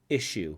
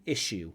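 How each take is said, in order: No difference in how they are said.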